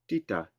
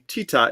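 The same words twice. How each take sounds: First: The middle consonant sounds soft, like a d. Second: The middle consonant is a hard t sound. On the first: The speaker calls it right. "Almost like more of a D sound" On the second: The speaker calls it wrong. "it wouldn't be Tita"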